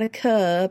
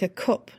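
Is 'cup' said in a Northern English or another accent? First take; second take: other; Northern. First: The word is said in a non-Northern accent. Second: The word is said in a Northern English accent. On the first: The speaker calls it wrong. "not a cup" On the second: The speaker calls it right. "Tell me the Northern accent"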